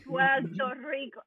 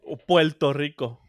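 First: Slow, exaggerated Puerto Rican "Puerto Rico" with an L: "Puelto Rico"; mock Puerto Rican accent. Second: Slowed, teasing "Puerto Rico" said as "Puelto Rico"; lightly mock the Puerto Rican L in "Puerto Rico"; mock Puerto Rican accent. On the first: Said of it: "yo odio cuando hacen eso". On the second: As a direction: burla suave del acento boricua: "Puelto Rico". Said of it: "todos los países tienen acento".

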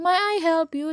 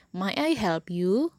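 First: High and loud from "May" through "you", as if snapping; wrong intonation, whole "May I help you" pushed up angrily; mock-angry offer, pitch soaring right from "May"; angry all-rising tune. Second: Slow polite question, lifting only on the final "you"; gentle question rise on "you"; rising at the end. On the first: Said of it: "marah-marah". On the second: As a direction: keep "May I help" level, raise "you". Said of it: "Intonasinya naik di ak-, di akhir kalimat". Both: Shown as a demonstration.

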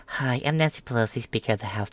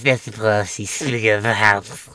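First: Lightly voiced crisp, composed politician; a hint of a clear, put-together Speaker; Nancy Pelosi before. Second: Mock slurred, sleepy Pelosi; a hint of a drugged, drifting speaker; Nancy Pelosi now. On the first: Mocking Pelosi as she used to sound, composed. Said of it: "Pelosi went from speaking like". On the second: Mocking Pelosi as she sounds now, slurred. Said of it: "kinda quickly, too... on something".

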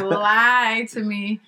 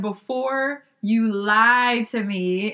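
First: Very slow stretched "Lie to me"; drawn out. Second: Slow, stretched out; drawn out. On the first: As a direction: drag "Lie to me" out slowly. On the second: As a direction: stretch every word slowly, teasing. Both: Retold or imitated. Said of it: "she had it drawn out".

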